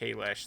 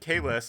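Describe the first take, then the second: First: The name ends with a sh sound. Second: The name ends with a plain s sound. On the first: The speaker calls it right. "should be pronounced Kalesh" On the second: The speaker calls it wrong. "but that was not technically correct"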